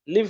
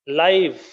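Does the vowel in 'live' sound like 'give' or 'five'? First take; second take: give; five. First: The vowel is short, as in 'give'. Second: The vowel is long, as in 'five'. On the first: It means to reside somewhere. "I live in Khammam" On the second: It means happening in real time. "you are watching a live class now"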